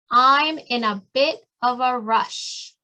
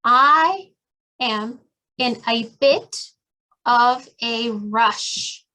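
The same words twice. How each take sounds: First: Slow, smooth and connected; now say it as one smooth line; slow fluent model phrase. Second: Drawn out, with pauses between words; slow clear model phrase. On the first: Teacher repeating the phrase whole, slow and connected. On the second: Teacher modeling a phrase word by word, slow and halting. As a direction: spell out each piece slowly. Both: Shown as a demonstration. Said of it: "también pueden decir".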